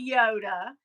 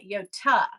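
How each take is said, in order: First: The middle consonant is a D sound. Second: The middle consonant is a T sound. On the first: The speaker calls it wrong. "a lot of people say Yoda" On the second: The speaker calls it right. "in the Greek culture, we pronounce that Yota"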